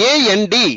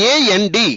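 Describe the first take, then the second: Both takes have the same delivery.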